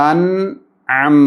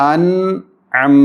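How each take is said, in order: The two takes are said the same way.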